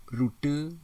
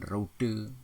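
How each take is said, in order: First: High, loud "Rute" with pure U; "Rute" as ru-te, rising; standard pronunciation. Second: "rute" with OU glide, "route"; nonstandard pronunciation. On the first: Teacher models standard word, punched "Rute". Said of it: "baku, bukan rute". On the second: Teacher shows wrong form, "rute" as rou-te. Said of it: "tidak baku". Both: Shown as a demonstration.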